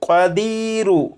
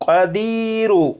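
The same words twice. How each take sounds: First: The word ends with a short 'u' vowel. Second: The word ends with a short 'u' vowel.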